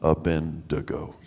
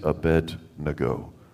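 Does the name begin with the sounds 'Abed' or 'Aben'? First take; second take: Aben; Abed. First: The name begins with the sounds 'Aben'. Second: The name begins with the sounds 'Abed'. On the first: The speaker calls it wrong. "not Abendigo" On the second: The speaker calls it right. "it is Abednego"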